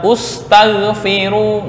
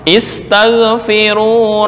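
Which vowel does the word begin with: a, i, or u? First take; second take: u; i. First: The word begins with a u vowel. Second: The word begins with an i vowel. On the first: The speaker calls it wrong. "nggak boleh dibaca ustaghfiru" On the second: The speaker calls it right. "asal adalah dibaca kasrah"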